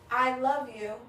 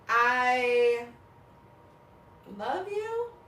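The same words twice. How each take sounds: First: It is said warmly, falling at the end. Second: It is said as a question, rising.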